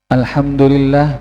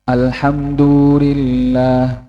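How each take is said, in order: First: The vowels are held at normal short length. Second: A vowel is stretched out longer than normal. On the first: The speaker calls it right. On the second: The speaker calls it wrong.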